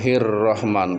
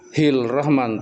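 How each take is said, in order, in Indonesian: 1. Bunyi R terdengar sebelum rahman. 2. Bunyi L terdengar sebelum rahman. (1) "tapi hir rahman ro" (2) "tidak hil rahman"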